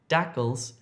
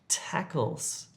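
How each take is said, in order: First: The word begins with a d sound. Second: The word begins with a t sound. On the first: The speaker calls it wrong. "you need to change that d sound to a t" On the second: The speaker calls it right. "to a t"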